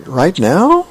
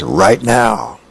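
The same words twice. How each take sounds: First: RIGHT NOW lifted high, rising into a question; hesitant question. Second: RIGHT NOW stated with falling pitch; firm answer. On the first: Charlie Brown checking with Lucy, unsure rising "Right now". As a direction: ask "Right now" with pitch climbing on "now". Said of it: "And he goes". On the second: Lucy answering Charlie Brown, firm falling "Right now". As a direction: answer "Right now" as a settled order, dropping on "now". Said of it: "she says, "Right now". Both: Acted.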